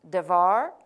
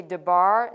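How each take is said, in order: First: Devar, said with a clear v sound, de-VAR. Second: Debar, said with a b sound, de-BAR. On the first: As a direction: say devar with the v, stress on the end. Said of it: "should be pronounced". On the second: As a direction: say debar with the b, stress on the end. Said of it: "I may say". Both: Shown as a demonstration.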